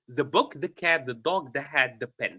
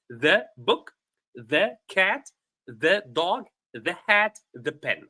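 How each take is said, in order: First: The list is read at a fast pace. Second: The list is read at a normal pace.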